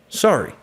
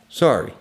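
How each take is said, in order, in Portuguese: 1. A variação de altura é exagerada e ampla. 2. A variação de altura é normal e moderada. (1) "estou exagerando um pouco"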